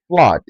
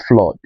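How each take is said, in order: First: Flood said flahd, open ah. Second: Flood said with a rounded o, flod; wrong o sound. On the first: Teacher correcting flood, open ah. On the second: Teacher showing the wrong flood, rounded o. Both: Shown as a demonstration. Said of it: "and not flood".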